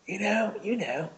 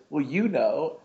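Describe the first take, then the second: First: High-pitched mock British accent. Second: Said in the usual way. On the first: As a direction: put on a British accent, much higher. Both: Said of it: "I mean, my British accent".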